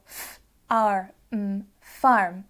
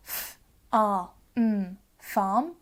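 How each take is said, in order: First: "f, r, m, farm" sounded out with r as a full arr; rhotic sounding out. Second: "f, r, m, farm" sounded out with r as a plain ah; non-rhotic sounding out. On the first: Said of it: "pronouncing the A R, the R sound differently". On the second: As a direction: sound out "f, r, m, farm" southern English style, no r. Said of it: "those examples we just saw". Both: Shown as a demonstration.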